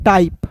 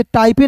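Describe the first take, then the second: First: टाइप with a silent final e; correct reading. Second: टाइपे with a sounded final e; wrong reading. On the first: Teacher giving learners the right reading, टाइप ending on p. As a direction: say टाइप as one syllable ending on p. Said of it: "इसे पढ़ते हैं टाइप". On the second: Teacher warning against a misreading, टाइपे with final e voiced. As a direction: say टाइपे in two syllables, ending in "pay". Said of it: "इसे टाइपे नहीं पढ़ते हैं". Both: Shown as a demonstration.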